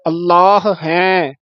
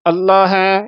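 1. ਦੋਵੇਂ ਹ ਦੀਆਂ ਆਵਾਜ਼ਾਂ ਸਾਫ਼ ਬੋਲੀਆਂ ਜਾਂਦੀਆਂ ਹਨ। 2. ਦੋ ਵਿੱਚੋਂ ਇੱਕ ਹ ਦੀ ਆਵਾਜ਼ ਛੱਡੀ ਜਾਂਦੀ ਹੈ। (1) "ਅੱਲਾਹ ਦੇ ਪਿੱਛੇ ਵੀ ਹਾਹਾ ਹੈ, ਅੱਗੇ ਵੀ ਹਾਹਾ ਹੈ" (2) "ਕਿਤੇ ਅੱਲਾਹ ਹੈ ਇਸ ਤਰ੍ਹਾਂ ਨਾ ਬੋਲਿਆ ਜਾਵੇ"

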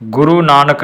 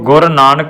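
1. ਪਹਿਲਾ ਸ਼ਬਦ ਲੰਮੇ u ਸਵਰ ਨਾਲ ਖ਼ਤਮ ਹੁੰਦਾ ਹੈ। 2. ਪਹਿਲਾ ਸ਼ਬਦ ਛੋਟੇ u ਸਵਰ ਨਾਲ ਖ਼ਤਮ ਹੁੰਦਾ ਹੈ। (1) "ਗੁਰੂ ਨਾਨਕ ਨਹੀਂ ਬੋਲਣਾ" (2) "ਗੱਗੇ ਨੂੰ ਔਂਕੜ ਤੇ ਰਾਰਾ"

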